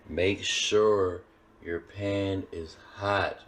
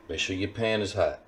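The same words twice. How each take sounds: First: "Make sure your pan is hot" very slow, pauses between chunks; slow emphasis. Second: Said in the usual way. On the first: Real, not acted. Cook repeating pan advice because it's important, slow and emphatic. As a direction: draw out "sure", "pan" and "hot", each set apart. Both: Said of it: "I'm putting emphasis on that".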